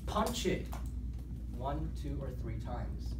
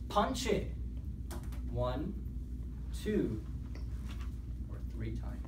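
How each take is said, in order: First: It is said smoothly without marked pauses. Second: It is said with short pauses between beats.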